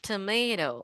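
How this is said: It is said with an American accent. "Americans say it like tomato"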